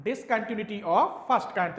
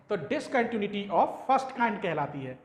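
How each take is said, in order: First: Slow, word by word for notes; slow dictation. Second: Said in the usual way. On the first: Shown as a demonstration. Teacher dictating Discontinuity of first kind to students, slow and deliberate. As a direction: spell out Discontinuity of first kind slowly so students can write. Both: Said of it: "तो ये भी लिखे देता हूं".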